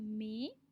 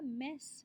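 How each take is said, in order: First: It ends with an 'ay' vowel and no 's'. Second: It ends with a short 'e' and an 's'. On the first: The speaker calls it right. "pronounce it like A Y" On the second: The speaker calls it wrong. "Bukan mess"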